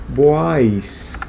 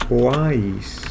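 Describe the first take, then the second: No difference in how they are said.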